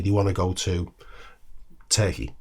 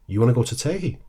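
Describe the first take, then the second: First: Said in the usual way. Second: "Turkey" lifted into a rising question tune; question inflection. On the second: Shown as a demonstration. Echoing a friend's words back, "Turkey" rising as a question. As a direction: echo "You wanna go to Turkey?" back, voice rising on "Turkey". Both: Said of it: "There's the inflection".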